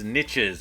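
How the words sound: The word is said rhyming with 'riches'. This is how many people in the US say it. "A lot of people in the U S say niches, ... they like to say there's riches in those niches"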